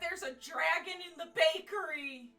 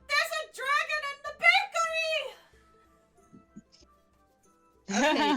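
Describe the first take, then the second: First: It is said in a normal speaking voice. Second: It is said in a high screeching voice.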